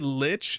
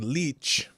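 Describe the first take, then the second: First: The vowel is a short 'i' as in itch. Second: The vowel is a long 'ee' as in each. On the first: "I always say Lich" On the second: "give it a a European I"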